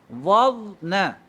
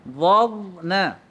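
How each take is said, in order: Both takes have the same delivery.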